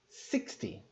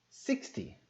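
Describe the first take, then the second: Both takes have the same delivery.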